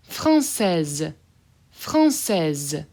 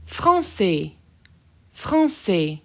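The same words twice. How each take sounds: First: Française with the S buzzed as a clear Z at the end. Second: Français with silent final S, ending on open e; masculine form. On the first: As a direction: buzz the S in Française like a Z. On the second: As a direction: say Français without sounding the S. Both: Shown as a demonstration. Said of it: "I'll say that S as a Z".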